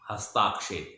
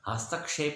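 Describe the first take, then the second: First: The second syllable has a long vowel. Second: The second syllable has a short vowel. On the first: The speaker calls it wrong. "हस्ताक्षेप बोल देते हैं, ए को आ" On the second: The speaker calls it right. "हस्तक्षेप होता है"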